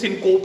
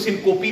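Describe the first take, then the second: First: It is said with two syllables, ending in p. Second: It has three syllables with an o middle vowel. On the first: "इसको सिनकोप नहीं कहना" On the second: "इसको सिनकोपी भी नहीं कहना"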